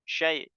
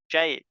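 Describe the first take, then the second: The two takes are said the same way.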